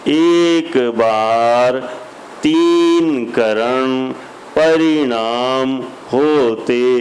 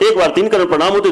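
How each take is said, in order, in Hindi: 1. शब्द धीरे-धीरे और खींचकर बोले गए हैं। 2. शब्द तेज़ी से और जल्दी-जल्दी बोले गए हैं। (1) "स्लो सुनना है तो उसमें स्लो वाला सिस्टम लगा दो, तो उसमें ऐसी आवाज आएगी" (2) "और फास्ट कर दो"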